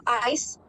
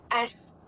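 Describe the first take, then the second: First: "ice" with the full long i vowel; standard ice. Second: "S" for ice, the vowel flattened; rural Punjabi ice. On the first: Shown as a demonstration. Contrasting with rural Punjab speech, standard pronunciation of ice. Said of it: "instead of ice". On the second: Retold or imitated. Imitating rural Punjab speakers saying ice, regional pronunciation. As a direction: say "ice" as a short "S". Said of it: "So they say".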